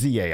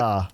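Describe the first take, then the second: First: It is said as two separate letter names. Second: It is said as one syllable rhyming with pizza. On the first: The speaker calls it right. "It's Z A, obviously" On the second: The speaker calls it wrong. "pronounce it Za, like pizza"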